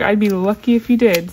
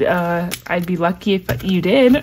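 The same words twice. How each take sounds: First: Said in the usual way. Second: Laughing through it, tripping on the words; can't get the words out for giggling; stumbling with a laugh. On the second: Real, not acted. Fumbling a reply to a kind sender, laughing. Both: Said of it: "I can't even talk".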